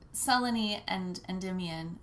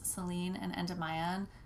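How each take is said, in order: First: The name ends without rhyming with 'lie down'. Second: The name ends rhyming with 'lie down'. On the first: It is the usual accepted form. "is the more usual pronunciation" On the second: It is bent to fit a rhyme in a song. "we really wanted to, it to rhyme with You Will Lie Down"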